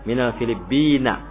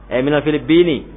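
First: The last word ends with an 'a' vowel. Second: The last word ends with an 'i' vowel. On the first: The speaker calls it wrong. "bukan Filibin" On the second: The speaker calls it right. "tapi Filibin. ... karena ada min, maka itu apa mengkasrohkan kata berikutnya"

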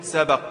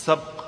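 First: The b is followed by a short a vowel. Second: The b carries no vowel after it. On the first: A prize or compensation for winning a contest. The speaker calls it right. "بالفتح" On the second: Racing or competing without any compensation. The speaker calls it wrong. "مش سبق"

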